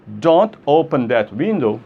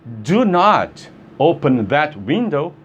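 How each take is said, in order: First: The negative is contracted to one syllable. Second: The negative is said as two full words. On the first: A plain instruction not to open the window. "Se eu falo don't open that window" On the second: A more forceful, emphatic instruction. "eu estou sendo mais enfático"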